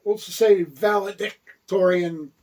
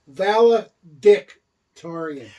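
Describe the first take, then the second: First: Valedictorian said normally at an easy pace; just say valedictorian the ordinary way; plain. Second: Valedictorian drawn out slowly, oddly enunciated; odd enunciation. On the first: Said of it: "I enunciated in an improper, uh, manner". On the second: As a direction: stretch out valedictorian improperly, syllable by syllable. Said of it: "I don't like the way you said his name". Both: Shown as a demonstration.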